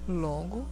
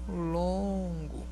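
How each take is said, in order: First: The word is said briefly, at normal length. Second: The word is stretched out and held long. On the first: "nós colocamos nele a duração curta" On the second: "esse mesmo longo aqui está na duração longa"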